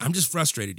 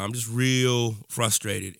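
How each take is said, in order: First: Said in the usual way. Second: Slow, heavy stress on "real"; weary emphasis on "real frustrated". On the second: Real, not acted. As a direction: lean into "real" and slow the whole line down.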